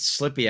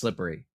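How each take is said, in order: First: The word is said with two syllables. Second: The word is said with three syllables. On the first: "Almost no one puts the extra syllable in around Pittsburgh" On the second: "It's not slippery"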